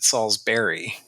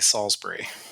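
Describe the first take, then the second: First: The ending sounds like the word berry. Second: The ending does not sound like berry. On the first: The speaker is a local. "if you are local, you would probably pronounce it Salisbury, like B E R R Y" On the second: The speaker wants to sound more refined. "we try to up the class a little bit and we say Salisbury"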